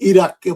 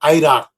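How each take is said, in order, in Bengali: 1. প্রথম স্বরধ্বনিটি 'ee' এর মতো শোনায়। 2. প্রথম স্বরধ্বনিটি 'eye' এর মতো শোনায়।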